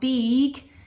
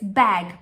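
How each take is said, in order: First: The vowel is long, like the letter name. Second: The vowel is short, as in bed. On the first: The speaker calls it wrong. "it's not beeg" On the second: The speaker calls it right. "So it's making a short sound"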